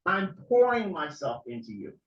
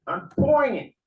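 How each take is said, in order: First: Said in the usual way. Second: "pouring" cried out high and loud, voice cracking; real tears breaking through the words; voice breaking into a cry. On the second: Real, not acted. Pouring his heart out to his viewers, voice breaking.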